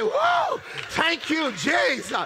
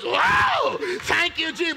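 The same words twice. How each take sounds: First: It sounds weary and relieved. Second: It sounds excited and passionate. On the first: Relief at finally getting to rest. "The bed is no longer a place of passion. It's actually a place of rest" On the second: Delight in passion. "20 years ago, it was"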